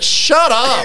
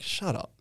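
First: It is said loudly and openly. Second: It is said very quietly, under the breath. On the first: It is meant to be heard. "your mate have to say it louder. And in the end" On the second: It is meant not to be heard. "Like really under your breath"

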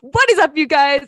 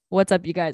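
First: The greeting is loud, lively and overly energetic. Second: The greeting is flat with little pitch movement. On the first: "just too much" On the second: "it's very monotone"

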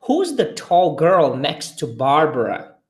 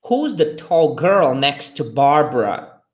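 No difference in how they are said.

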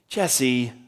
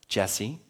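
First: The name is said in a sharp, scolding tone. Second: The name is said in a light, friendly tone. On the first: The listener is in trouble. "Jesse, what are you doing?" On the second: The caller just wants a casual chat. "Jesse means, hey, I want to talk to you"

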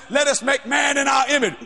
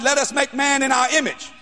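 First: It is said in a put-on, ape-like voice. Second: It is said in a natural voice.

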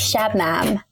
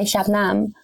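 First: It is said with an English pronunciation. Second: It is said with an Afghan pronunciation. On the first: "But when English people say, they're like Shabnam" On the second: "My parents would say Shabnam, like Nam"

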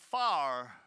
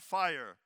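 First: Fire is flattened to sound like far. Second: Fire is said with its full vowel. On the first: "They might say far" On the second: "for fire"

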